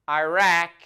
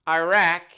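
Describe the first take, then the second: The two takes are said the same way.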